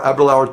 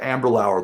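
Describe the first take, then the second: First: The name is said without an m sound. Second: The name is said with an m sound. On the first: The speaker calls it right. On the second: The speaker calls it wrong.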